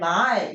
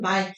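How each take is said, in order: First: The pitch starts low and then rises. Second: The word is said on a level pitch. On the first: This is how the word was said long ago. "옛날에 말 이렇게 읽었어야 됐던 소리" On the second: This is how the word is said today. "지금 우리가 말이라 발음하는"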